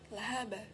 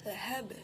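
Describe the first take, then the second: First: The final b runs into a full vowel. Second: The final b ends in a bare bounce. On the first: The speaker calls it wrong. "tidak boleh kita mengucapkan lahaba" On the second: The speaker calls it right. "Contohnya pada lafaz lahab"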